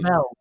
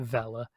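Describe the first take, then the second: First: The name is said with one syllable. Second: The name is said with two syllables. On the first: This is how the game announcer says it. "he says" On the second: This is the intended pronunciation. "they want you to pronounce it Vella"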